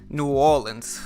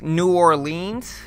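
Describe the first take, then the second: First: It is pronounced the way city locals say it. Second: It is pronounced the way outsiders say it. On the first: The person is from the city itself. The speaker calls it right. "if you're actually from New Orleans, it's like New Orleans" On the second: The person is not from the state. The speaker calls it wrong. "people think it's New Orleans, and it's not"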